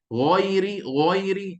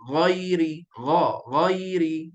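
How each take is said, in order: First: "Ghairi" wrongly rounded to "ghoiri"; protruded lips. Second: "Ghairi" with an open a, lips not pushed out; drawn-out, open "gha" then "ghairi"; unrounded lips. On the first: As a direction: push the lips out on "Ghairi", higher and firm. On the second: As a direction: keep "Ghairi" heavy but with relaxed, unrounded lips. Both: Shown as a demonstration. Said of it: "Jangan muncul mulut".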